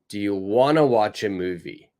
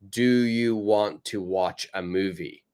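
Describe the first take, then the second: First: 'Want to' is blended smoothly into 'wanna'. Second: Each word is said separately and choppily. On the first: The speaker calls it right. "I would say wanna" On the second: The speaker calls it wrong. "too rigid. It sounds too much like a robot... too choppy"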